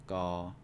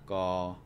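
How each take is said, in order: First: The syllable has a flat tone. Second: The syllable has a flat tone.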